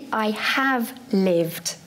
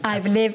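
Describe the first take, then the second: First: The word have is said in full. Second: The word have is contracted onto I.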